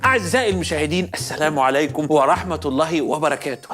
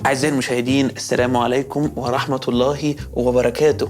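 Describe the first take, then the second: First: The greeting is said with agitated, high energy. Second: The greeting is said with calm, lower energy.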